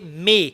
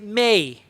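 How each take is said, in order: First: The vowel stays flat and steady. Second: The vowel curves into a glide. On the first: The speaker calls it wrong. "I will not say may" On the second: The speaker calls it right. "I will say may"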